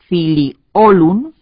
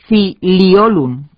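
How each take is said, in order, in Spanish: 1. El acento cae en la o. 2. El acento cae en la segunda i. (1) "con acento en la O" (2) "con acento en la segunda I"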